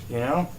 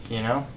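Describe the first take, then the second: The two takes are said the same way.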